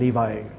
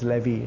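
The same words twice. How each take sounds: First: It is pronounced the English way. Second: It is pronounced the Malay and Indonesian way. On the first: The speaker calls it right. "But in English, it's Naphtali and Levi" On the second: The speaker calls it wrong. "Only in Malay and Indonesian, they pronounce as Levi"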